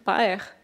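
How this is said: The vowel glides as a diphthong. This is how Quebecers say it. "comme les diphtongues par exemple, dire père"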